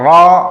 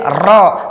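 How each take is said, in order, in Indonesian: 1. R punya getaran yang ringan dan terkendali. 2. R punya getaran yang panjang dan berat. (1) "suara ra menjadi sempurna" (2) "Kalau berlebihan jadi ra"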